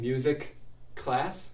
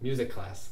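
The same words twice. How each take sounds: First: Two separate K sounds are pronounced. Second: A single K sound joins the words.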